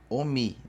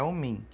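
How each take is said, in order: First: The final vowel is oral, not nasal. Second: The final vowel is nasal. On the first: The speaker calls it wrong. "Eu acho muito difícil alguém ter ouvido Omi" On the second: The speaker calls it right. "é uma vogal nasal terminada em I"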